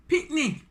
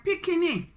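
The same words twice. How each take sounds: First: "pickney" said as PIK-ni; "pickney" short, with no middle vowel; two-syllable patois word. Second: "pickney" said as PIK-i-ni; "pickney" stretched to three syllables, pitched high; three-syllable patois word. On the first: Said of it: "they call the little children". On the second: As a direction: say "pickney" with an extra middle vowel. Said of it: "pickney or pickney". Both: Shown as a demonstration.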